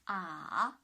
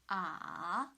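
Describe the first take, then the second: No difference in how they are said.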